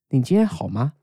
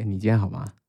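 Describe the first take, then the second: First: It is said with a Beijing intonation. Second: It is said with a Taiwanese intonation. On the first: "北京人可能会说" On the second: "可是台湾人会说"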